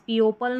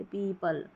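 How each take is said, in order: First: पीओपल with each vowel sounded, pee-o-pal; teacher shows the wrong way: पीओपल read letter by letter as pee-o-pal; wrong spelling pronunciation. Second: पीपल said as pee-pal, the o kept silent; पीपल, long ee then pal, no o sound; correct pronunciation. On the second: Teacher gives the right way after the wrong one: पीपल as pee-pal, o silent. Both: Shown as a demonstration. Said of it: "इस तरीके से पीओपल नहीं पढ़ते".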